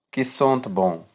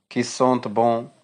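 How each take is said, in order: Both takes have the same delivery.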